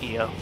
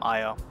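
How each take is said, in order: First: The name begins with an "ee" sound. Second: The name begins with an "eye" sound. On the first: The speaker calls it right. "The I is pronounced like an E, so it's E O" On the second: The speaker calls it wrong. "I always used to call him Io, but that's not the proper pronunciation"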